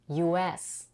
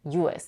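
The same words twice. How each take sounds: First: The stress is on the second letter. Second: The stress is on the first letter. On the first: It is used as a noun. "the primary stress is on the second letter, S" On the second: It is used as an adjective before a word stressed first. "the primary stress is on U"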